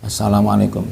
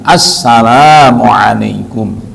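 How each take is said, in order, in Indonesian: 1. Bunyi 'la' dibaca pendek. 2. Bunyi 'la' dibaca panjang.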